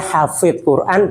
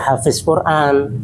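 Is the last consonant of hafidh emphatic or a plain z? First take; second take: emphatic; plain z. First: The last consonant of hafidh is emphatic. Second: The last consonant of hafidh is a plain z. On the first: It means one who memorizes and guards the Quran. The speaker calls it right. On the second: The meaning becomes very different. The speaker calls it wrong.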